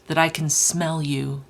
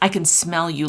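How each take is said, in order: First: It is read in a brooding, angsty put-on voice. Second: It is read in a plain, amused voice. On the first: "I'm trying to channel Kingfisher's vibe of an angsty eighteen hundred year old teenager" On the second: "I can't read this with a straight face"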